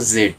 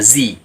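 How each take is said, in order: First: It is said the British way, zed. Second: It is said the American way, zee.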